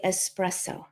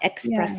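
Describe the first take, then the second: First: The word begins with an 'es' sound. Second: The word begins with an 'ex' sound. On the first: The speaker calls it right. "Must say espresso" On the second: The speaker calls it wrong. "not espresso"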